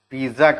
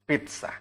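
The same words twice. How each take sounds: First: The middle consonant is a plain 'z' sound. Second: The middle consonant is a 'ts' sound. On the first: The speaker calls it wrong. "Pizza करके बोलते हैं. But that is wrong" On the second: The speaker calls it right. "Correct क्या है?"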